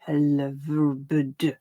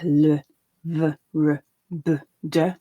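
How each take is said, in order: First: The sounds are said at a quicker pace. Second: The sounds are said at a slower pace.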